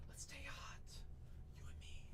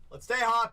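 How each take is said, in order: First: Breathy whispered murmur to a buyer. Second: Louder, pumped-up call; loud hype. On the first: Breaker whispering to a chat buyer, secretive whisper. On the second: Breaker hyping a buyer in chat, loud cheer. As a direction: pump up the buyer. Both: Real, not acted.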